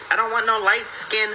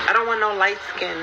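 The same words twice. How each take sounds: The two takes are said the same way.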